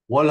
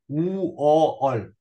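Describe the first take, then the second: First: The word is said once at normal speed. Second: The word is stretched slowly into separate sounds.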